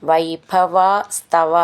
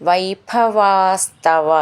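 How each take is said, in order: Both takes have the same delivery.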